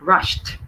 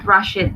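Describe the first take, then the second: First: The ending is a single t sound. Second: The ending is an extra 'ed' syllable. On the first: The speaker calls it right. "no e sound... the d will become t" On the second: The speaker calls it wrong. "not rushed"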